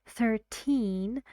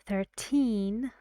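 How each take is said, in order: No difference in how they are said.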